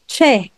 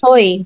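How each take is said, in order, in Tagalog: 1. Ang patinig ay parang 'weh'. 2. Ang patinig ay dumudulas na parang 'oy'. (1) "It's Che. ... the vowel that you have there ... is we" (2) "hindi siya"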